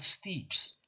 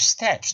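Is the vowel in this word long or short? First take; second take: long; short. First: The vowel is long, as in 'seat'. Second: The vowel is short, as in 'pet'. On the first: The speaker calls it wrong. "not steeps" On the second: The speaker calls it right. "steps, not steeps"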